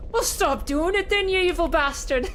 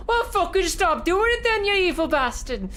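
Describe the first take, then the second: First: Put-on broad Scottish accent. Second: High, loud angry Scottish heckle; broad Scottish accent. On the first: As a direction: shout it like a Glasgow fan, laughing. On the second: Retold or imitated. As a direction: yell it like a furious Glasgow fan. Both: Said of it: "a broad Scottish accent pierced through".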